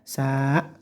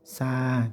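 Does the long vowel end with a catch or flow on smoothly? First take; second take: catch; smooth. First: The vowel is cut off with a glottal catch. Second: The vowel flows on smoothly without a catch. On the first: The speaker calls it wrong. "yang salah seperti kayak gini biasanya sa, tidak tidak hamzah" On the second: The speaker calls it right. "tapi sa, cukup los ke sa, ngalir saja"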